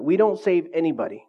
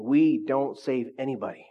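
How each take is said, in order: First: Said in the usual way. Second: "We don't save anybody" said slower with weight on We; slow it down and lean on "We"; slow emphatic repeat. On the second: Shown as a demonstration. Preacher repeating a key line to the congregation, slow and emphatic. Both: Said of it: "Let me just say that again".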